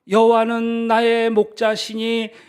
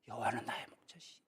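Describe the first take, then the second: First: It is said loudly and smoothly. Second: It is said haltingly, breaking off. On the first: The reciter has grasped the meaning. "다시 큰 목소리로 이제 외우기 시작합니다" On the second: The reciter has forgotten the words. "아주 막 그냥 홍당무가 되었어요"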